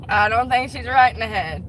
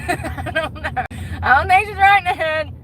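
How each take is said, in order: First: Said in the usual way. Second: High-pitched pretend concern; mock concerned helper. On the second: Pretend telling ER staff about customer, high mock concern. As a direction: play it high, like a bewildered good Samaritan.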